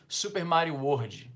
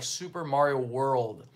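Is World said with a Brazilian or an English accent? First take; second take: Brazilian; English. First: World is said with a Brazilian Portuguese accent. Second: World is said with an English rhotic r. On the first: "if I were to speak with my my native Brazilian accent" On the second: "there's like an effort to do that tongue roll"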